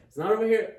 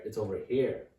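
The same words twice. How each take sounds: First: "It's not over here" said high and loud, NOT punched; pointing out the wrong place, loud and high; stress on not. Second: Said in the usual way. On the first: Shown as a demonstration. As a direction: hit "not" hard and high to mark the wrong spot. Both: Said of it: "The X is over there".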